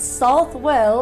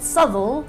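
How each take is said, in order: First: The name is pronounced as spelled, South-well. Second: The name is pronounced in a shortened form. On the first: "because that's how it's written" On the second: "and not"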